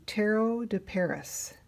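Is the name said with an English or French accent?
English. The name is said with an English accent.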